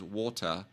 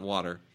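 First: It is said with a British accent. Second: It is said with an American accent. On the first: "It's all British. That's why my daughter says water" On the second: "and not water"

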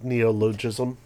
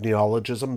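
First: The word is said in a misread pronunciation. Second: The word is said in its usual pronunciation. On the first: The speaker calls it wrong. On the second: The speaker calls it right.

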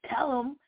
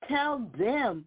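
First: The second word is reduced to a short 'em.' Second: The second word is said in full as 'them.' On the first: This is the casual form used in the brand name. "don't say tell them" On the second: This is the form others considered more professional. "say tell them"

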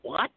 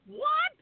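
First: It is said in a lower voice. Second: It is said in a high voice.

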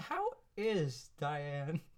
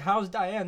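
First: "How is" is said as two full words. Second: "How is" is contracted to one syllable. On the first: "They say" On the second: "They don't say"

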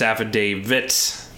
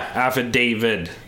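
First: The word ends with a t sound. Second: The word ends with a d sound. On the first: The speaker calls it right. "But it's affidavit" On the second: The speaker calls it wrong. "I thought it was affidavit, too"

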